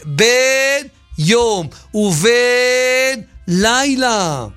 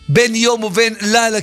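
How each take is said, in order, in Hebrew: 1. צליל ה-b נמשך ארוך ומודגש. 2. צליל ה-b קצר ולא מודגש. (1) "מאריכים באות בית" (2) "כי אם אתה לא מדגיש את הבית, יוצא כאילו זה בן זכר"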